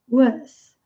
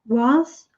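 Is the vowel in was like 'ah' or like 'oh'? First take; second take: oh; ah. First: The vowel sounds like a rounded oh. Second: The vowel sounds like an open ah. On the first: "A ou o" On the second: "A ou o"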